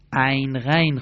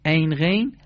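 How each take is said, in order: First: عین said æyn, غین said ghæyn; Arabic ayn and ghayn. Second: عین said eyn, غین said ghein; Persian ayn and ghayn. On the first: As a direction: open the vowel in عین the Arabic way. (تلفظ عربی عین و غین با æ) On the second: (تلفظ فارسی عین و غین با e) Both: Shown as a demonstration.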